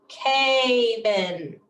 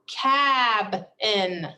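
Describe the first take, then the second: First: The first syllable ends on the vowel sound. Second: The first syllable ends on the b sound. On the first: The speaker calls it wrong. "we broke it after the A" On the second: The speaker calls it right. "we broke it after the B"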